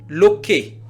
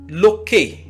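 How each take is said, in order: Both takes have the same delivery.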